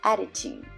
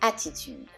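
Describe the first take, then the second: First: The T sounds are smooth and soft. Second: The T sounds are crisp and strong. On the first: "In English, it's pronounced attitude. ... smoother. It's kind of softer" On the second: "the double T pronunciation in the word attitude"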